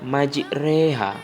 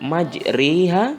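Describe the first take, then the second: First: The vowel after the r is an e. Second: The vowel after the r is a clear i. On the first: The speaker calls it right. "tapi dibacanya majreha ... tapi menjadi E, antara fathah dengan kasroh" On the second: The speaker calls it wrong. "bukan majriha, ... bukan I"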